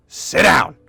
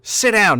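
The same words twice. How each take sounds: First: Said in the usual way. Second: Higher, louder snapped command; angry order. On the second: Acted. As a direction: bark it now that his patience is gone. Knight repeats, now angry.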